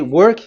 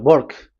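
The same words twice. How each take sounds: First: It is said with a W sound. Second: It is said Indian-style, W like a B.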